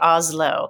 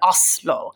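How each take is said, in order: First: The middle consonant is a voiced z sound. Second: The middle consonant is a hard s sound. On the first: This is how Americans say it. The speaker calls it wrong. "I guess I do say Oslo ... as an American, we will transfer that to a Z" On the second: This is how Norwegians say it. The speaker calls it right. "the S is a little harder, right? It's like an Oslo"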